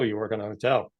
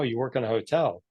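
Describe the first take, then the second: First: It sounds unimpressed and let down. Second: It sounds impressed and admiring. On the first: Working in a hotel is seen as unremarkable. "Now I think it's, oh" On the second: Working in a hotel is seen as exciting. "they'd be this, wow"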